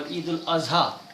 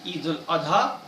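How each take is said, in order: First: The last word has a z sound. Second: The last word has a d sound. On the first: "this Duat is also pronounced as Zuat by some" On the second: "some say Duat"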